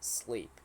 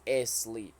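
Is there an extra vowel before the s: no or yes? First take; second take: no; yes. First: The word starts directly with the s sound. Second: An extra vowel sound comes before the s. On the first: The speaker calls it right. "It is sleep. No e" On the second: The speaker calls it wrong. "It is not asleep"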